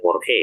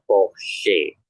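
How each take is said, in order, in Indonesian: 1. Huruf tengah itu bukan bunyi SH. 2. Huruf tengah itu bunyi SH. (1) "jangan dibaca Porsche" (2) "dibacanya sama seperti S C H tadi"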